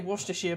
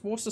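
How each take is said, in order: First: The word ends with a 'shire' syllable. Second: The word ends without a 'shire' syllable. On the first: "I say Worcestershire" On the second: "you don't pronounce the Shire. I'm pretty sure it's just Worcester sauce"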